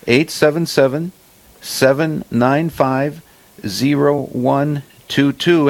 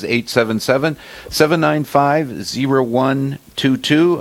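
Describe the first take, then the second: First: The number is read more slowly. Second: The number is read at normal speed.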